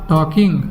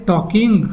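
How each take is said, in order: Both takes have the same delivery.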